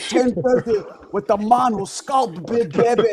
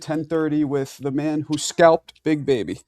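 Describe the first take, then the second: First: It is said in a put-on Scottish accent. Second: It is said in the speaker's usual accent.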